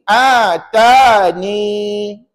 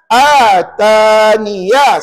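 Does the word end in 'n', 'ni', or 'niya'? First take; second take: ni; niya. First: The word ends with a short ni sound. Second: The word ends with a full niya sound. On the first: The word is read with a stop at its end. "kita kekalkan ya dan dibaca begini" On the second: The word runs on into the next word. "kekalkan huruf ya itu dan baca dengan baris satu di atas"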